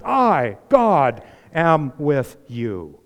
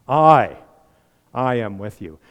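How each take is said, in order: First: "I" and "God" punched, am with you drawn out slowly; emphatic I, God. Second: "I" struck loud, pause, then am with you; emphatic I. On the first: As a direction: land on "I" and "God" one by one. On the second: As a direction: stress on I, set apart before the rest. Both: Shown as a demonstration. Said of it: "that is an emphatic".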